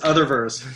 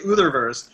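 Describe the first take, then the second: First: The name begins like the word 'other'. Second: The name begins with an 'ooh' vowel. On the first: The speaker calls it right. "I say no, it's Otherverse" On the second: The speaker calls it wrong. "they say Utherverse"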